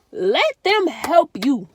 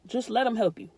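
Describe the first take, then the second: First: Loud, slow, drawn-out plea; pleading emphasis. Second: Said in the usual way. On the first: Real, not acted. Urging depressed viewers to accept help, slow loud plea. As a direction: stretch it out like begging them. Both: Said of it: "Real talk".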